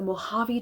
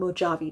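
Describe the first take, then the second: First: The j is sounded like an H. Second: The j is sounded like a J. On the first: This is the usual name. "instead of calling it" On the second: This is how the desert dwellers say it. "they're mispronouncing this"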